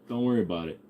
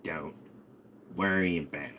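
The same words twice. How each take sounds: First: Said in the usual way. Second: Low, much softer dismissal; hushed parental warning. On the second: Acted. Parent repeating an answer to a child, low and hushed. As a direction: drop low and quiet to shut the question down.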